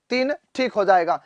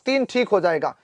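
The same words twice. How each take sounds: The two takes are said the same way.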